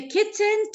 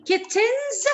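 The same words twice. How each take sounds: First: Said in the usual way. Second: "Kittens" pitched up, with the final s sounded; stressed possessive ending. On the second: Shown as a demonstration. Teacher showing where the apostrophe goes, stressed possessive ending. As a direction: raise "Kittens" and voice its added s clearly. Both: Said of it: "and apostrophe before the S".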